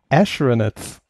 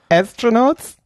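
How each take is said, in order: First: The first syllable has an sh sound. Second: The first syllable has a plain s sound. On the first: "sondern Astronauts. ... Ash, immer Ash" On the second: "Die sagt nicht Astronauts"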